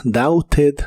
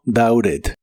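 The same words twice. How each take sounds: First: "doubted" as "dauted" with a clear T; official, T sounded. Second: "doubted" as "daured", tapped. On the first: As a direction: give "doubted" its full T. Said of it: "La pronunciación oficial es". ("doubted" con T clara) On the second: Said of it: "este verbo como R". ("doubted" con T como R) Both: Shown as a demonstration.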